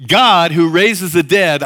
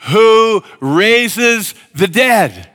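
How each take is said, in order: First: Slow, weighty repeat with stress on God; slow preached emphasis on God; emphatic preached line. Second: Slow, loud, drawn-out congregational reading; slow unison scripture reading; read aloud in unison. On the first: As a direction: lean hard on God and slow down. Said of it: "say it with me". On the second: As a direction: read each word slowly together with the crowd. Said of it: "I want you to say it with me". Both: Shown as a demonstration.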